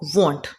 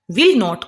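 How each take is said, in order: First: One contracted syllable is said. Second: Two separate words are said in full. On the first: "will not को we will pronounce like want"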